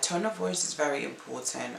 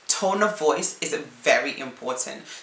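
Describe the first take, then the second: First: It is said flatly, with little pitch range. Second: It is said lively, with a wide pitch range.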